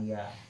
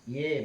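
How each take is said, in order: First: The vowel is open, sounding like 'ya'. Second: The vowel is fronted, sounding like 'ye'. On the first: This is the other reciters' reading. "bukan ya" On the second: This is one reciter's reading. "ye bacanya"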